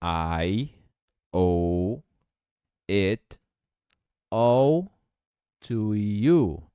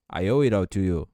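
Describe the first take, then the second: First: Each word said separately, slow; robotic, one word at a time; "I owe it all to you" broken into single words. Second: "I owe it all to you" smooth, with flapped T; linked it all. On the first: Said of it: "vamos falar agora de uma maneira não robótica". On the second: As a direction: run "it all" together as "ir all". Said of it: "esse T vai ficar com som de R". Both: Shown as a demonstration.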